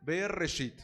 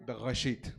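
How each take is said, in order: First: "Bereshit" with a trilled Spanish R; "Bereshit", tongue-tip trill on the R; rolled R. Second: "Bereshit" with a throaty R; "Bereshit", guttural Hebrew R, not trilled. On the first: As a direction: roll the R in "Bereshit" as in ferrocarril. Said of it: "pueden decir con R, R de ferrocarril". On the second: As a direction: make the R in "Bereshit" in the back of the throat. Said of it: "O pueden hacerlo gutural". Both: Shown as a demonstration.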